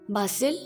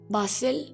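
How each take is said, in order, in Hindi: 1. यह ब्रिटिश लहजे में बोला गया है। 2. यह ब्रिटिश लहजे में बोला गया है।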